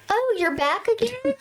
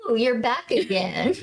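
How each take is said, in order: First: High-pitched questioning lilt, rising at the end; mock surprise. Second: Understated stern remark, near usual pitch; mildly stern. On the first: Retold greeting to repeat trick-or-treater. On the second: Retold or imitated. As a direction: retell it with a touch of sternness. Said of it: "I did sternly say".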